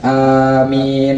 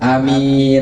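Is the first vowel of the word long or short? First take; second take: long; short. First: The first vowel is held long. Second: The first vowel is kept short. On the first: "mad alifnya yang pertama, kemudian tidak menggunakan tasdid huruf mim" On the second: "atau pendek uh, alif yang pertamanya dan tidak menggunakan tasdid di huruf mim"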